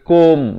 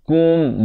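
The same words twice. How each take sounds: First: The vowel sounds like 'o' in 'ko'. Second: The vowel sounds like 'u' in 'ku'. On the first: The speaker calls it wrong. "Bukan bunyi ko" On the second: The speaker calls it right. "Kaf baris dhammah, bunyi ku"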